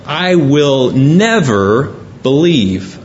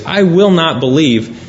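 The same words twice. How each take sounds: First: Slow, weighty I will never believe with never leaned on; preacher showing the emphatic translation, slow and firm. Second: Said in the usual way. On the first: Shown as a demonstration. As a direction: press every word of I will never believe, slowly. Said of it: "In fact, it's emphatic". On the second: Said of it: "much stronger than we get from reading it".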